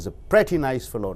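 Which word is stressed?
pretty. The stress falls on the word pretty. He is a really good person. "நல்ல அருமையான பையன்"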